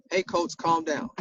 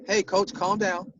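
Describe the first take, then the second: First: Easy, even "Hey, coach, calm down."; soft "Hey, coach, calm down." with no edge; calm reminder. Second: Slow, easy "Hey, coach, calm down."; slow, gentle "Hey, coach, calm down." as he said it in the game; calm reminder. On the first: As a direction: repeat "Hey, coach, calm down." in a mild, friendly tone. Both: Shown as a demonstration. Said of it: "that's how I said it".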